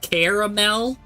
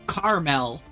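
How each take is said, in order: First: The first syllable sounds like 'care'. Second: The first syllable sounds like 'car'. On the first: "like Care Bears" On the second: "like a, a carnival"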